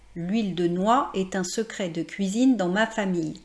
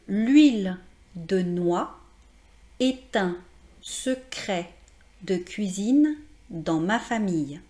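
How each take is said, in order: First: It is said at a natural, flowing conversational pace. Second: It is said slowly, each word carefully articulated. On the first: "je vais le prononcer plus naturellement" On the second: "voici euh, la prononciation de cette phrase"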